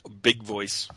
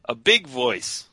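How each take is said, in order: First: It is said quietly, without much force. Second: It is said louder and higher pitched.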